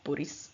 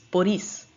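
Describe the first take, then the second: First: The stress is on the first syllable. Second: The stress is on the second syllable. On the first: The speaker calls it wrong. "it's not Boris" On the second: The speaker calls it right. "the I with the two dots is E, which puts the emphasis"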